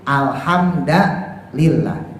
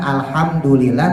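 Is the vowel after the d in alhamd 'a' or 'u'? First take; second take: a; u. First: The d is followed by an 'a' vowel. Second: The d is followed by a 'u' vowel. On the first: "dibacanya fathah"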